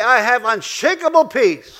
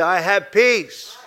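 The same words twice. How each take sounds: First: Louder and higher, slowed, punching "unshakable"; rousing call-and-response. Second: Very slow, model the line for them to repeat; slow call-and-response. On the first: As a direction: build it up, strong on "unshakable". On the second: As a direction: lead the congregation, slow and firm. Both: Shown as a demonstration.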